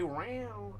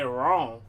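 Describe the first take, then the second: First: "round" drawn out slowly; the round meow. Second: "wrong" said louder with a falling tune; the wrong meow. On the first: Owner contrasting the cat's meows, slow "round". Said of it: "if you say round". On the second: Owner contrasting the cat's meows, louder "wrong". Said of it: "If you say wrong". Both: Shown as a demonstration.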